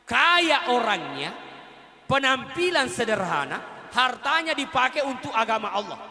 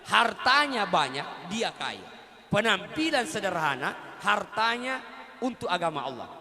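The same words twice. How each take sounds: First: 每个词都放慢加重; slow emphatic. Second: 重复强调，放慢; repeated for emphasis. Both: Shown as a demonstration. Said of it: "Saya ulangi".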